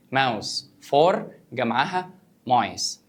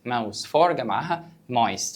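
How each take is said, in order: First: Slow, clear dictation. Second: Said in the usual way. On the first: Shown as a demonstration.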